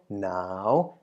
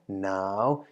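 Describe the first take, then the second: First: The syllable is said with a rising tone. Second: The syllable is said with a rising tone.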